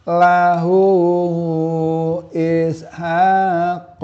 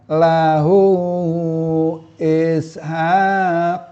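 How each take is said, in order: The two takes are said the same way.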